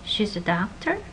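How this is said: The pitch rises at the end. It is a question. "this rising intonation"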